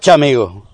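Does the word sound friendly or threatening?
threatening. It is said in a stern, threatening tone. It is a warning to stop. "El no chamigo es decirte basta. Un paso más y esto termina mal"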